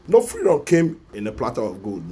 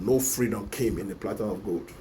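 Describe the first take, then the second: First: Louder, slogan-like; loud declaration. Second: Said in the usual way. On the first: Real, not acted. Vlogger rallying viewers to fight, loud proclamation. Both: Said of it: "repeated slogan".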